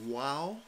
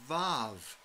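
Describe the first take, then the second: First: The name starts and ends with a w sound. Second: The name starts and ends with a v sound. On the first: "It's called the WAW, W-A-W" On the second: "if you learned your Hebrew from a German professor, it's called the VAV, V-A-V"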